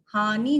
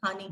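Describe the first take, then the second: First: "हानि" with a long final "nee"; wrong pronunciation. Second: "हानि" soft and light, short "ni"; "haa-ni", quiet short last vowel in "हानि"; correct pronunciation. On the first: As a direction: hold the end of "हानि": "haa-nee". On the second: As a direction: let the end of "हानि" drop short. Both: Shown as a demonstration. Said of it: "हानि नहीं होती".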